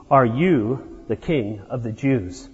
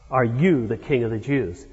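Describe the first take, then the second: First: Said in the usual way. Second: "you" leaned on in "Are you the king of the Jews?"; stress on you. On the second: Shown as a demonstration. Preacher showing where Pilate puts the weight: "you" stressed. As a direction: press the word "you". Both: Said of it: "With the emphasis on you".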